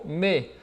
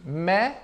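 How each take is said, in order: First: "me" said mé, with closed é; drawn-out closed "me"; closed vowel. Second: "mais" said mè, with open è; drawn-out open "mais"; open vowel. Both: Shown as a demonstration. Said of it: "eu posso ter essa pronúncia aqui".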